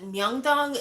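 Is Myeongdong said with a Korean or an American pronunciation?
Korean. The name is said with a Korean pronunciation. The speaker calls it right. "I think she said Myeongdong at some point"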